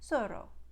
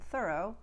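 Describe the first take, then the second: First: It begins with an s sound. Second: It begins with a th sound. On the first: "become S in Hungarian" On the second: "Most unvoiced T H sounds, as in think and thorough"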